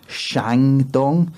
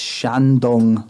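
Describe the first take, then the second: First: The first syllable ends with an 'ng' sound. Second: The first syllable ends with an 'n' sound. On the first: The speaker calls it wrong. "on the podcast I say Shangdong" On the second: The speaker calls it right. "there's only one G. So it's Shandong"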